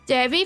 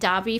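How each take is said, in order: First: It is said with an American pronunciation. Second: It is said with a British or Australian pronunciation. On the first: "for U S talking" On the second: "for U K Australian"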